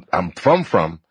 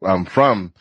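First: "from" drawn out and doubled; stress on FROM. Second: Said in the usual way. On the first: Real, not acted. Host clarifying where the family is truly from, stressed "from, from". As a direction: lean slowly on "from", then repeat "from" lower. Doubled word for true origin.

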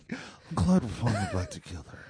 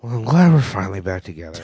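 First: Quiet, dull imitation of a radio DJ; mocking radio DJ voice. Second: College radio DJ. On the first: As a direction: echo it back like a bored DJ. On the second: Real, not acted. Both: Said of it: "you sound like a college radio D J".

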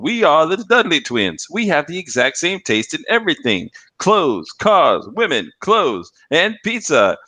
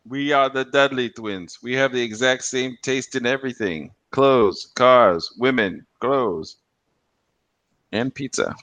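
First: Higher, slow cheesy commercial twins chanting; hammed-up ad twins. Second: Slow, lightly voiced ad twins; a hint of cheesy commercial twins; lightly mock twins ad. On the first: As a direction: ham it up like TV twins. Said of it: "they're, like, saying". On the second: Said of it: "that fucking commercial".

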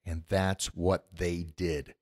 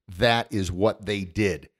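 First: And that's what they did, said slowly and softly, low and quiet; podcast host sums up the comeback, slow and hushed; slow, hushed emphasis. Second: That is what they did, with IS pulled apart and hit, slow; host drives home that the Blues moved on, stressing is. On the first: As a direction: let it land, slow and low. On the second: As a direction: lean hard on is, slowly. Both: Real, not acted. Repeats the point for weight.

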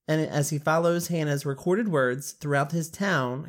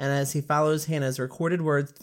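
First: Reading with a swollen tongue; tongue too big, words thick. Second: Thick-tongued careful retake; swollen tongue. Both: Real, not acted. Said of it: "Why is that hurting my tongue?".

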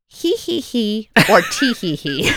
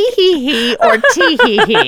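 First: Put-on child's giggle demo. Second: High, loud mock child giggles; child's giggle. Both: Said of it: "Mom, what's more realistic?".

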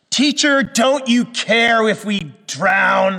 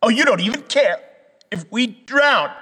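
First: High, loud, slow accusing wail; edgy cry. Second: Higher, louder mocking whine; sarcastic. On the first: Retold or imitated. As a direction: let a sarcastic edge cut through the plea. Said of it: "their cry has a little edge to it". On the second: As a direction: sneer it with heavy sarcasm. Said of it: "There's kind of a sarcasm in it".

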